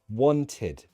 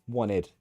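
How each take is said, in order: First: The middle t sound is clearly pronounced. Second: The middle t sound is dropped.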